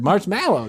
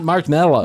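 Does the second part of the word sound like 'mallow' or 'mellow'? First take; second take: mallow; mellow. First: The second part sounds like 'mallow'. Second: The second part sounds like 'mellow'. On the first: The speaker calls it right. "That's that is the word marshmallow" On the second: The speaker calls it wrong. "not marshmallow"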